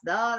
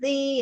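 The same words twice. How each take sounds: First: The vowel is a reduced 'uh' sound. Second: The vowel is a full 'ee' sound. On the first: This is how the word is pronounced today. "now it's the. That's the way we pronounce it. It's a schwa" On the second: This is how the word was once pronounced. "it probably was the"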